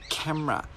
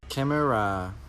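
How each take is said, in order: First: The word is said with two syllables. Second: The word is said with three syllables. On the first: The speaker calls it right. "Just two syllables" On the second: The speaker calls it wrong. "No. No. No"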